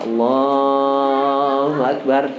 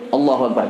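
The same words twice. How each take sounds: First: The phrase is said at a moderate length. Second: The phrase is said very quickly, cut short. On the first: There is enough time to form the intention. The speaker calls it right. "Jadi sedang saja" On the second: There is no time to form the intention. The speaker calls it wrong. "kalau pendek niat tidak akan sempat masang niat"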